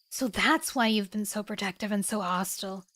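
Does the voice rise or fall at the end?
fall. The voice falls at the end, like a statement.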